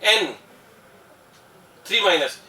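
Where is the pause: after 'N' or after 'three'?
after N. A short pause comes after 'N'. It names the nitride ion. "पहले एन बोलते हैं, फिर थोड़ा रुक जाते हैं, फिर बोलते हैं थ्री माइनस"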